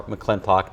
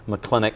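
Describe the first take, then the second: First: "McClintock", with the t and final -ock sounded; variant place-name pronunciation. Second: "McClinic", with no t-o-c ending; variant place-name pronunciation. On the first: Superintendent offering the other local name for the school, pronouncing it "McClintock". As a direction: say "McClintock" ending in -tock. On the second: Superintendent respecting both local ways of saying the school, pronouncing it "McClinic". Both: Shown as a demonstration. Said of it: "It's pronounced both ways".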